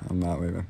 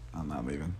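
First: It is said loudly. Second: It is said at normal volume.

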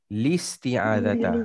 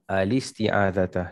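First: The word starts directly with an 'l' sound. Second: The word starts with an 'a' vowel.

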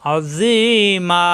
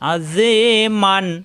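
First: The word ends on a long a, no n. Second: The word ends with an n sound. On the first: The reciter stops after this word. "অক্ষ করলে দুই জবরে অক্ষ হলে এক জবর বাদ দিয়ে একালিপ টানতে হবে" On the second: The reciter joins it to the next words. "অক্ষ না করে মিলিয়ে পড়লে আজি মান"

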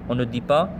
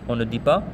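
No difference in how they are said.

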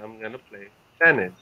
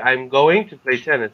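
First: It is said with the reduced form 'gonna'. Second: It is said with the full form 'going to'.

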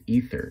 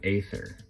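First: It starts with an 'ee' vowel, like Egypt. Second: It starts with a vowel other than 'ee'. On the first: The speaker calls it right. "the correct pronunciation of that is Ether" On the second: The speaker calls it wrong. "not Aether"

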